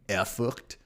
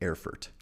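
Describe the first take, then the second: First: The name is said with a German accent. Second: The name is said with an English accent.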